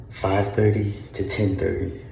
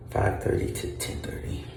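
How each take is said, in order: First: Said in the usual way. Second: Unvoiced whisper of the times; whispered repeat. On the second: Shown as a demonstration. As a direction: breathe the words without voice.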